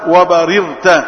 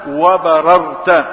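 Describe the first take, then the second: First: The r carries an i vowel. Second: The r carries an a vowel. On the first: "بكسر الراء" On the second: "بفتح الراء"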